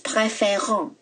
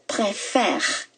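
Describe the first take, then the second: First: The ending is pronounced as a nasal vowel. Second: The word ends at the R sound. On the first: The speaker calls it wrong. "Do not pronounce as préférant" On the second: The speaker calls it right. "You say préfère. You stop at R"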